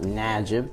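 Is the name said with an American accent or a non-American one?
American. The name is said with an American accent. The speaker calls it wrong. "It's not Najib"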